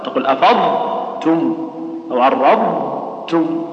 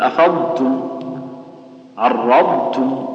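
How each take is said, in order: First: أفضتم أو عرضتم said slowly with a break at the ض; wrong stop on dad. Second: أفضتم، عرضتم said slowly with ض fully sounded; correct dad. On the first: Teacher slowly imitating a wrong stop at ض. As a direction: cut the sound at the ض in أفضتم and عرضتم. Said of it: "لا، لا تسكت، سكت خطأ". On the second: Teacher slowly showing students the right ض. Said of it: "والصحيح أنك تظهرها". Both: Shown as a demonstration.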